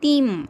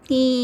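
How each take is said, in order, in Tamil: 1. சொல் முழு ம் மெய்யெழுத்தில் முடிகிறது. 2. சொல் மூக்கொலி உயிரொலியில் முடிகிறது. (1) "தீம் அப்படின்னு சொல்லக்கூடாது" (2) "மூக்கால் உச்சரிக்கணும்"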